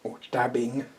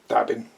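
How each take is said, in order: First: The final g sound is fully pronounced. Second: The final g sound is dropped. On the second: "the amount of letters that British people drop"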